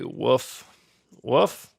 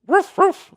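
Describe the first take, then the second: First: A weak, lazy bark that barely tries; horrible dog impression. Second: High, loud yappy bark; better dog impression. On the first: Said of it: "That was a horrible dog impression". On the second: Teacher redoes the bark for the class, high and loud. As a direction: bark it out like an eager little dog. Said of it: "that's a little better". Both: Shown as a demonstration.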